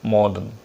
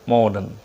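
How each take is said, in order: Both takes have the same delivery.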